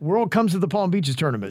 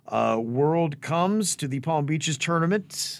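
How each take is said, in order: First: It is said fast with no pause. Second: There is a pause after 'World Comes'. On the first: The speaker calls it right. "I say it fast" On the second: The speaker calls it wrong. "You don't want to pause there. Like I did"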